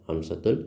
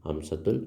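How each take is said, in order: The two takes are said the same way.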